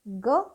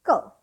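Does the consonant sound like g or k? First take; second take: g; k. First: The consonant sounds like a soft g. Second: The consonant sounds like a k. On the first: "दो प्रोनाउंसिएशन है which is ग एंड क" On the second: "दो प्रोनाउंसिएशन है which is ग एंड क"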